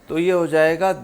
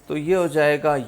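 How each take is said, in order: Both takes have the same delivery.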